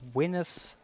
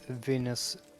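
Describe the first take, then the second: First: The name begins with a W sound. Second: The name begins with a V sound.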